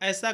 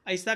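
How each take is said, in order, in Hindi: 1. स्वर मानक हिंदी के तरीके से बोला जाता है। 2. स्वर अवधी के तरीके से बोला जाता है।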